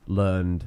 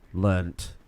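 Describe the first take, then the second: First: The word ends with a soft d sound. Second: The word ends with a crisp t sound. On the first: The speaker calls it wrong. "It doesn't work in the English accent either" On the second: The speaker calls it right. "Sounds a lot more final, doesn't it?"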